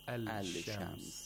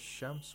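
First: The l is pronounced before the sh. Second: The l merges into a doubled sh sound. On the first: The speaker calls it wrong. "It's difficult to say it that way" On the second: The speaker calls it right. "Is it easier to say ash-shams"

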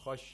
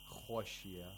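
First: The first consonant has moderate heaviness. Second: The first consonant has exaggerated heaviness. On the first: The speaker calls it right. "You should not exaggerate the تَفْخِيم of خَ" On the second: The speaker calls it wrong. "You shouldn't say خَشْيَ. خَشْيَ is incorrect"

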